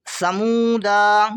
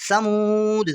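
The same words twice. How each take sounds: First: समूदा ending in a long "daa"; final alif sounded. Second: समूद closed on "d" after a long "moo"; final alif silent. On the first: Teacher shows alif after daal misread, long final "daa". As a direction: slowly draw out the last vowel of समूदा. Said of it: "ये अलिफ नहीं पढ़ा जाएगा". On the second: Teacher shows how it is read, stopping on the "d". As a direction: end समूद on the consonant, no vowel after. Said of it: "इस तरह पढ़ा जाएगा". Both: Shown as a demonstration.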